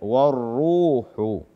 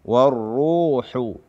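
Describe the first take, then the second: Both takes have the same delivery.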